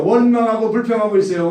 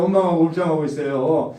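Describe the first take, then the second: First: First take louder and higher; emphatic repeat. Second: Said in the usual way. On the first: Real, not acted. Preacher to congregation, louder and higher. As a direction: drive home the complaint charge.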